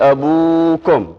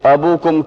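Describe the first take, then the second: First: The vowel after 'ab' is long. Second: The vowel after 'ab' is short. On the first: The speaker calls it right. "वाव के साथ" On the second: The speaker calls it wrong. "की बजाय"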